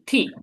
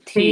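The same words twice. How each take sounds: First: It is said in the fourth tone. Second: It is said in the third tone. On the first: "fourth টান" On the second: "third টান"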